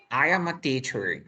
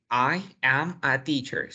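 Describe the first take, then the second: First: "I am a teacher" with "am a" run together; linked speech. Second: Choppy "I am a teacher", every word split apart; robot reading. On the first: Teacher showing linked natural speech. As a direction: link the words smoothly. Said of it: "linkear junto este con este". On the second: Teacher mocking the robotic reading for the student. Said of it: "estás hablando como robot". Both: Shown as a demonstration.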